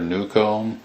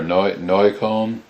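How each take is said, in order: First: The name is pronounced the English way. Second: The name is pronounced the German way.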